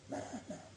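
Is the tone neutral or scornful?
scornful. It is said in a scornful, reproachful tone. It mocks and rebukes the self-assertion of the word.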